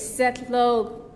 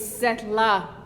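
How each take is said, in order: First: The second syllable ends in an 'o' sound. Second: The second syllable ends in an 'a' sound. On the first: I work with my hands. The speaker calls it right. "My Koyukon name is" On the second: I work for Uncle. The speaker calls it wrong. "I was pronouncing it wrong for a while. I was saying Setla"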